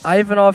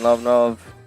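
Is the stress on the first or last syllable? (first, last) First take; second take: first; last. First: The stress is on the first syllable. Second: The stress is on the last syllable. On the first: The speaker calls it right. "I think it's Ive" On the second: The speaker calls it wrong. "I keep saying Lov"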